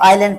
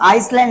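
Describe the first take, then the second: First: No s sound is said in the middle. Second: An s sound is said in the middle. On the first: The speaker calls it right. "एस यहाँ पर silent" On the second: The speaker calls it wrong. "इसको आइसलैंड नहीं पढ़ेंगे"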